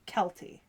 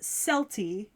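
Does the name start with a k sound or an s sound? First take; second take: k sound; s sound. First: The name begins with a k sound. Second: The name begins with an s sound. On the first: This follows the original Celtic pronunciation. "if you were to go by Celtic pronunciation, it should be Kelty" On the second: This is how the show itself says it. "it is pronounced Celti in the anime"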